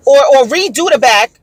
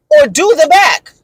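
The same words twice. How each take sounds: First: "redo" raised and emphasized; indignant demand, punching "redo"; stress on redo. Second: "do" punched high and hard; indignant correction, hammering the word "do"; stress on do. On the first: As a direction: lean on the word "redo". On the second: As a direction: hit "do" sharply, higher pitched. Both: Retold or imitated. Corrects redo to do.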